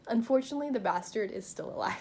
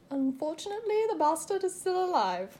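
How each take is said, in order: First: It is said in the speaker's plain everyday voice. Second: It is said in a put-on British military voice.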